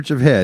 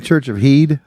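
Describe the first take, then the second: First: The last word has a short 'eh' vowel. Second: The last word has a long 'ee' vowel.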